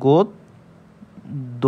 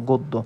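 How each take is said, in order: First: গদ্য split slowly into গদ and দো; syllable demonstration. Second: Said in the usual way. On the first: Shown as a demonstration. Teacher showing how to say it, গদ্য very slowly by syllable. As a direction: sound out গদ্য with a long gap between the two দ sounds. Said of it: "সুতরাং আমরা কি বলতে পারি?". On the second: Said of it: "এভাবে বলতে পারি".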